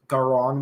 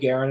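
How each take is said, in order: First: The last syllable sounds like 'on'. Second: The last syllable sounds like 'en'. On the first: This is how the speaker expected it to be said. "not Garon, which I thought would be the pronunciation" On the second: This is how the English dub says it. "the reason why I call it Garen"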